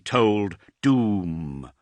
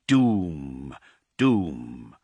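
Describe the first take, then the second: First: Drawn out, slow, heavy toll; slow tolling doom. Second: Each doom lower, dying away; fading doom echo. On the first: Narrator tolling the doom bells, slow and heavy. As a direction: let the word ring like a great bell. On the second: Narrator echoing the doom bells, sinking lower. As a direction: let the bell echo sink lower and lower. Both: A narrator's reading.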